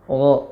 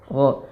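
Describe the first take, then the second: Both takes have the same delivery.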